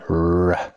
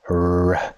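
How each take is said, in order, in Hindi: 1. 'r' मुँह के आगे से बनता है। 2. 'r' मुँह के आगे से बनता है।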